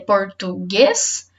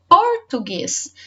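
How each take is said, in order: First: The stress is on the middle syllable. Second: The stress is on the first syllable.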